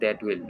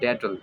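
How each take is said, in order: First: It is said as two full words. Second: It is said as one contracted word. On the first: "এটা হবে দ্যাট উইল" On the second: "মানে ড্যাটল"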